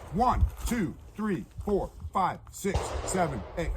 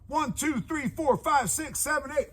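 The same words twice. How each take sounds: First: The numbers are counted slowly. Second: The numbers are counted at the quickest pace.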